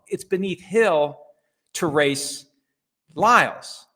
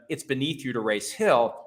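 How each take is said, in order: First: "Hill" and "Lyles" hit hard, slowly, with pauses; stress on HILL and LYLES. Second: Said in the usual way. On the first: Acted. Flipping who is beneath whom, stress on "Hill" and "Lyles". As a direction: correct them, punching "Hill", then "Lyles" alone and loud. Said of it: "No, no, no, no". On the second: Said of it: "people have said to him".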